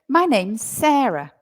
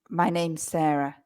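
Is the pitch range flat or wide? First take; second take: wide; flat. First: It has a broad, wide English intonation. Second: It has a flat, Spanish-style intonation.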